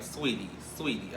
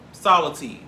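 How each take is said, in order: First: SWEETIE said as "swee-tee", softly; corrected name. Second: SOUR TEA said like "SAH-luh-tee"; playful mispronunciation. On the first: Shown as a demonstration. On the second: Pretend. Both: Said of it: "Please call the woman by her name".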